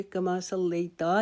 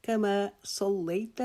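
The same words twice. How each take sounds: First: کما صلیتا with the final ت stretched into a long تا; wrong long ta. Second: کما صلیت slowly, ending on a short, clipped ت with no vowel; short ta, correct. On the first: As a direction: draw out the last syllable as تا. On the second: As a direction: stop cleanly on the ت of صلیت, do not stretch it. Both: Shown as a demonstration. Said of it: "تا کو لمبا نہیں کریں گے".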